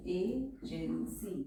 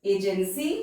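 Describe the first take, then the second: First: agency drawn out slowly syllable by syllable, softer; slow teacher demo; slow and syllabled. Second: Said in the usual way. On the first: Shown as a demonstration. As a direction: spell agency out slowly for dictation.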